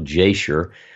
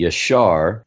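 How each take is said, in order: First: The name begins with a J sound. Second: The name begins with a Y sound. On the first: This is the common English form. "as it's pronounced in English by many people" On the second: This is the original Hebrew form. "if you were going to pronounce it correctly, according to the Hebrew"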